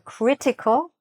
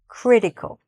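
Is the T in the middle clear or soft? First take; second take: clear; soft. First: The middle T is clearly pronounced. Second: The middle T is soft, barely pronounced. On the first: "you could pronounce this T" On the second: "usually they don't really say the T"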